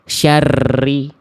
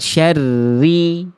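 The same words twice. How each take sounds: First: The r is trilled excessively. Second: The r has a light, moderate trill. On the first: The speaker calls it wrong. "getarannya berlebihan" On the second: The speaker calls it right. "Ada getarannya tapi nggak berlebihan"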